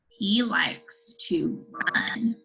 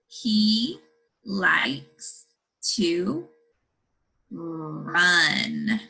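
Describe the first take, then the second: First: The sentence is read at a faster pace. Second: The sentence is read at a slow pace.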